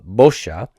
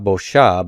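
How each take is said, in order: First: The stress is on the first syllable. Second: The stress is on the last syllable. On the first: The speaker calls it right. "we're continuing to stress the first root consonant and its vowel" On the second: The speaker calls it wrong. "So not bosha"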